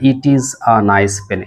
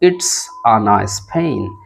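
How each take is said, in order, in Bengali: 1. এটা দুটি আলাদা শব্দ হিসেবে বলা হয়। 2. এটা জোড়া লেগে একটি সংকুচিত শব্দ হিসেবে বলা হয়। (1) "এটা না বলে" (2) "ইট ইজ এটাকে আপনি কানেক্ট করলেন করে বললেন ইটস"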